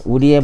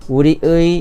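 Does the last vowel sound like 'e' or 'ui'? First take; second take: e; ui. First: The final vowel is a plain 'e' sound. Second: The final vowel is a full 'ui' sound. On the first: This is the ordinary everyday pronunciation. "우리의 목표는 애로 발음하잖아요" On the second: This is how high officials say it in speeches. "우리의 우리의 이렇게 의 이렇게 발음해"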